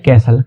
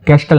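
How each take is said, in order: First: No t sound is heard in the middle. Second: A t sound is heard in the middle. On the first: The speaker calls it right. "टी silent रहता है" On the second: The speaker calls it wrong. "कैस्टल नहीं बोलना है इसको"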